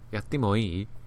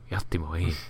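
First: It is asked in an inquisitive tone. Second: It is said in a creepy tone.

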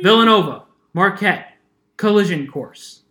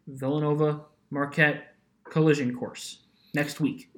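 First: It is said with strong, energetic emphasis. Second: It is said flatly, without much emphasis.

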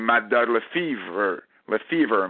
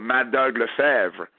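First: The surname is said with English pronunciation. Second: The surname is said with French pronunciation.

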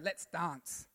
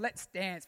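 First: Dance is said with a broad, posh British vowel. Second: Dance is said with a flat, non-British vowel. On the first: "It's more British. It's more up. It's more poshy" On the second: "I used to always say dance"

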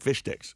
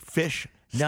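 First: The words are said quickly. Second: The words are said slowly.

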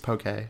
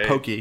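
First: The word ends with a short 'keh' sound. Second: The word ends with a long 'kee' sound. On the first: The speaker calls it right. "it's poke" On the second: The speaker calls it wrong. "It's not pokey"

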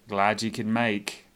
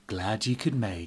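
First: It is said in a sarcastic tone. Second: It is said in a satisfied tone.

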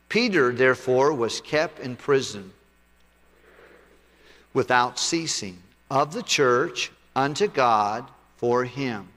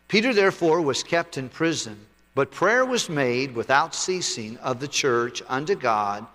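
First: It is read more slowly. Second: It is read at a normal pace.

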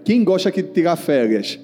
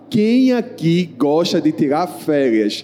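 First: It is said at a normal speed. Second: It is said very slowly.

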